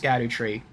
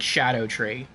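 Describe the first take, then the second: First: The name sounds like 'scatter tree'. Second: The name sounds like 'shadow tree'. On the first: The speaker calls it wrong. "is not pronounced Scattertree" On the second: The speaker calls it right. "It's pronounced, I think it's like Shadow Tree"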